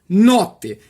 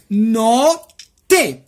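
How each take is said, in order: First: The word is said quickly. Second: The word is said slowly. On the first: "Essa aqui rapidinho" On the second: "Agora eu vou falar devagarzinho"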